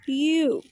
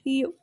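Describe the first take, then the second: First: "you" with a full, long 'oo'; strong form. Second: "you" short and reduced; weak form. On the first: Teacher showing learners strong forms, "you" long and full. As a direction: stretch "you" out as a stressed word. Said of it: "The word you in a strong form". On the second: Teacher showing learners weak forms, "you" short and unstressed. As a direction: cut "you" to a brief 'yuh' or short 'yu'. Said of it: "in a weak form we pronounced". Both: Shown as a demonstration.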